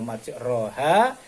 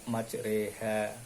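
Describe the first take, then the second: First: The vowel after r is an open a. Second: The vowel after r leans toward e. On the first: It means travelling on land. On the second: It means travelling at sea. "dibaca majreha"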